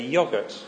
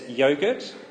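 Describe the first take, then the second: First: Yogurt is said with a British pronunciation. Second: Yogurt is said with an Australian pronunciation. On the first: "I speak British and I say yogurt" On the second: "She speaks Aussie and says yogurt"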